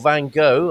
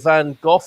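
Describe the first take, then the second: First: The name ends with an open vowel. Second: The name ends with an f sound.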